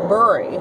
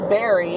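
First: The first vowel sounds like in 'hurry'. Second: The first vowel sounds like in 'carry'. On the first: "my dad pronounces Barry as Burry" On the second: "my dad pronounces Barry as Burry"

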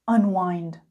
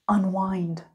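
Both takes have the same delivery.

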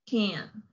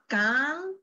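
First: The vowel is said relaxed, without effort. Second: The vowel is said fully, with effort. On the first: The speaker calls it right. "it's can. ... los músculos aquí de mi rostro están muy relaxed" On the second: The speaker calls it wrong. "So it's not can"

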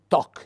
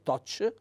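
First: The word ends with a hard k sound. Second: The word ends with a soft ch sound. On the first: The speaker calls it right. "si è obbligati quindi a pronunciare il suono" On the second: The speaker calls it wrong. "per evitare di pronunciare la C dolce"

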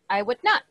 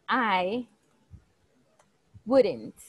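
First: The words are said in full as 'I would not'. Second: The words are contracted to 'I wouldn't'. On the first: "So negative is I would not" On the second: "But in the contraction form, we will say I wouldn't"

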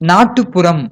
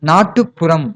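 Both takes have the same delivery.

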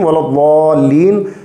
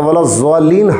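First: The doubled consonant sounds like a heavy d. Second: The doubled consonant sounds like a z. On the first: The speaker calls it right. "दुआत को उसके मखरज से अदा करना चाहिए" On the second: The speaker calls it wrong. "हरगिज़ हरगिज़ नहीं पढ़ना चाहिए"

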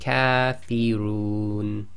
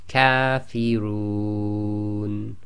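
First: The long vowel is held for two counts. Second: The long vowel is held for four counts.

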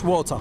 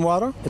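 First: The word is said in a British accent. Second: The word is said in an American accent. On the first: "وبالبريتش" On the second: "بالأمريكان"

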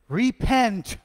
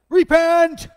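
First: It is said at normal, quieter volume. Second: It is said loudly and forcefully.

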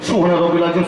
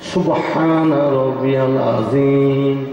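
First: It is said quickly and hurriedly. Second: It is said slowly and carefully.

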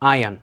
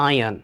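First: The r sound is left out. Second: The same.

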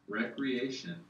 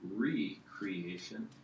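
First: It begins with a short 'rek' sound. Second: It begins with a long 'ree' sound. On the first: Leisure activity for enjoyment. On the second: Creating something anew.

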